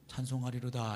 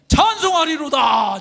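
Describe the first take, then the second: First: It is said flatly, without feeling. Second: It is said loudly, with sudden excitement.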